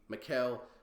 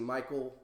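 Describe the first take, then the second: First: It is said with a hard k, as Mikel. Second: It is said like the English name Michael. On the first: "Then I see Mikel" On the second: "I look at that and I see Michael, even without the E, just my Americanized thing"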